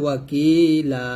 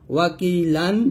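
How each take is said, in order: First: The word ends with a lengthened a vowel. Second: The word ends with a final n sound. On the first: The reading stops at this word. "যদি পড়েন এখানে অক্ষ ধরলে হবে ওয়াকিলা" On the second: The reading continues past this word. "লাম দুই জবর লান"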